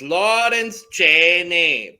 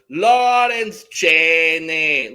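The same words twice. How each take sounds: First: The name is said plainly, with ordinary inflection. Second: The name is said with heavily exaggerated inflection. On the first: "she says it like a normal person would" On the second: "like just super exaggerative to the point of annoyance"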